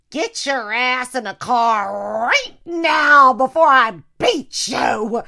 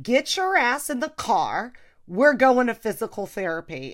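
First: Slow, loud, threatening shout, pitched up; loud slow parental threat; mom yelling. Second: Louder, firm order, pitched up; stern daughter ordering mom to therapy; bossy shout. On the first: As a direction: bellow it like a furious mother. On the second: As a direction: lay down the law like a parent. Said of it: "So now I was like". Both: Retold or imitated.

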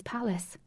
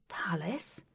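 First: Said in the usual way. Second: "Palace" softly with rising tune; questioning echo. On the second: Acted. Puzzled listener echoes the word, "Palace" rising in question. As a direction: lift the end of "Palace" into a question.

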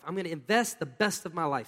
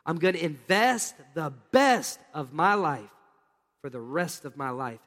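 First: Said in the usual way. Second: Slow, deliberate declaration. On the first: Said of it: "Say that with me". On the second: Shown as a demonstration. Preacher leading the congregation in a slow, firm declaration. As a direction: draw each phrase out, slowly. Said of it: "Now let's put it together".

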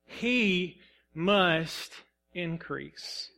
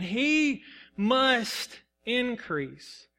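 First: Slow, weighty He must increase, fading on increase; slow emphatic scripture. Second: He must increase stretched out very slowly; drawn-out reflective repeat. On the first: Preacher reading scripture slowly to the church. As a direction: let He must increase land slowly, word by word. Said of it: "What does that mean? He must increase". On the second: Preacher pondering the verse aloud, very slowly. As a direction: linger on each word of He must increase. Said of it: "What does that mean?". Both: Shown as a demonstration.

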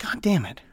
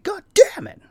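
First: Soft resigned God damn it; muttered curse. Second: God damn it pitched high in mock outrage; high mock-outraged God damn it; exasperated curse. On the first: Retold or imitated. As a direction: mutter it under your breath. Bird opened Google Maps. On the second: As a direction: squeal it in exasperation. Bird shat on him again.

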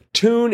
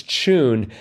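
First: "Tune" said TOON, no ch; tune with plain t. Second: "tune" starting with a ch sound; tune as CHOON. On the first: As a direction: say "Tune" with a clean t. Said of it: "is never pronounced as". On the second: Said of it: "pronounced as a soft ch sound". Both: Shown as a demonstration.

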